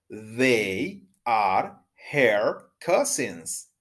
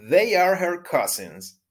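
First: The sentence is said at a normal pace. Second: The sentence is said at a fast pace.

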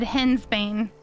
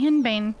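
First: An s sound follows the first syllable. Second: No s sound follows the first syllable. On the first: "I have always said hen's bane" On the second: "They say hen bane"

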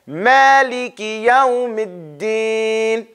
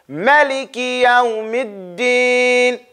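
First: It is recited in the Hafs reading. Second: It is recited in the Warsh reading. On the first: "And the other one said" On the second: "One said"

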